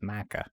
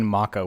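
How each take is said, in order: First: The first vowel is an A sound. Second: The first vowel is a short O sound. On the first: The speaker calls it right. "no, it's Maca" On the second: The speaker calls it wrong. "with like an O, like a, sh- a short O sound"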